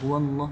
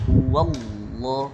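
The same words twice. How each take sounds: First: It runs straight through with no gap. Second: A slight gap comes before the heavy lam. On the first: The speaker calls it wrong. "Jangan langsung" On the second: The speaker calls it right. "jarak sedikit"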